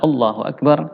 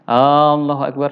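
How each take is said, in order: First: The vowels are kept short, not drawn out. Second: A vowel is drawn out long. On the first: The speaker calls it right. "yang benar adalah" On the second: The speaker calls it wrong. "jangan dibaca panjang"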